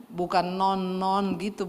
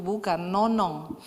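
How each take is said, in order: First: Non-non said slowly as the wrong version; slow clarification. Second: Nonong said slowly with a clear final ng; correcting the nickname: nonong, slow and deliberate; slow correction. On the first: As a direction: say non-non slowly, two clipped syllables. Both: Shown as a demonstration.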